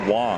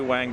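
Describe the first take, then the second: First: The vowel sounds like a soft o. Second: The vowel sounds like the a in bang. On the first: The speaker calls it right. "it's actually Wong. It's pronounced like an O" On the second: The speaker calls it wrong. "Most people do say Wang"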